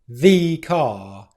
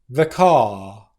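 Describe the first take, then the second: First: The word 'the' is long and stressed. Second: The word 'the' is short and unstressed.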